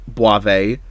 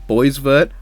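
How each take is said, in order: First: The name ends without its final consonants. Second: The name ends with its final consonants sounded. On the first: It is the proper way to say the name. "I know it's pronounced like Boisve" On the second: It is the sillier version the speaker prefers. "Boisvert's so much sillier to say"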